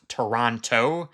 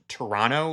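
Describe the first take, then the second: First: The name is said the way outsiders say it. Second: The name is said the way locals say it. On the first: The speaker is not from the region. "and not Toronto" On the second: The speaker is from the region. "like I'm pronouncing it"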